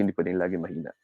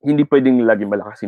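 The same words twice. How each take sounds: First: Much softer, dropped voice; demonstrating a weak, quiet voice; soft volume. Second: Fuller, quicker voice on the line; demonstrating the louder end of volume. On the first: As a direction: let the volume fall right away. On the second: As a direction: say it out firmly at full speaking volume. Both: Shown as a demonstration.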